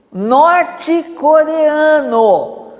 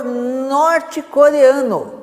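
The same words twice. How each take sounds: First: Norte-coreano drawn out very slowly, every syllable weighed; slow emphatic repeat. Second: Said in the usual way. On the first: Shown as a demonstration. Pastor stresses to the church: Norte-coreano spoken very slowly. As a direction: lean hard on Norte-coreano, stretching it out for the congregation.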